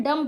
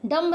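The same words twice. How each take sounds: First: डम ending on M, falling pitch; silent B. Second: डम्ब with a sounded final B; B pronounced. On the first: Teacher giving the correct reading, डम with silent B. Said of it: "डम पढ़ते हैं". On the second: Teacher showing learners the mistake, डम्ब with audible B. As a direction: release the B in डम्ब. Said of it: "डम्ब नहीं पढ़ते हैं". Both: Shown as a demonstration.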